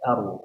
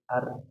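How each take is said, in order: First: The sound is heavy and thick. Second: The sound is light and thin. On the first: "kalau tebal" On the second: "Kalau tipis"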